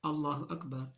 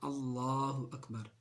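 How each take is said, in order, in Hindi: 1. L के बाद का स्वर छोटा है। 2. L के बाद का स्वर लंबा है। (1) "अगर कोई शख्स लाम के बाद अलिफ नहीं कहेगा तो उसकी तकबीर-ए-तहरीमा सही नहीं होगी" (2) "लाम के बाद जो खड़ा ज़बर है उसको वाज़े करके पढ़ना"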